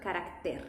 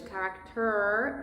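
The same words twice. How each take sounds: First: "carácter" with a tapped R and a clear Spanish E; Spanish pronunciation. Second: "character" slowly with an English R and vowels; English pronunciation. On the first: Teacher giving the correct Spanish "carácter" after English. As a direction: say "carácter" with pure Spanish vowels. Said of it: "but carácter". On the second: Teacher showing the wrong English "character" to avoid. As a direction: say "character" the English way, slightly slow. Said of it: "Not like in English". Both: Shown as a demonstration.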